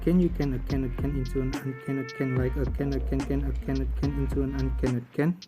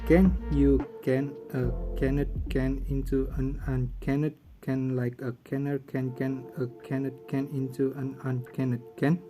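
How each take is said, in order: First: It is said at a fast pace. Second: It is said at a slow pace.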